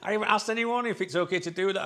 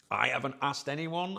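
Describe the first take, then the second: First: Fast and louder, laughing it out; giggling guilty admission. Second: Said in the usual way. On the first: Real, not acted. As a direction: confess through a laugh.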